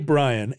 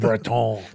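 First: The name is said with a plain English accent. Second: The name is said with a French accent.

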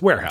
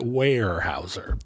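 First: No 'y' glide follows the first vowel. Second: A slight 'y' glide follows the first vowel. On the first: "But it's Weyerhaeuser" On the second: "You can like dip down into the Y a little bit"

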